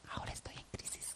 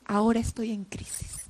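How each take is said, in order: First: Whispered. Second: Said in the usual way. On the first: Acted. Preacher paraphrasing Jesus' anguish.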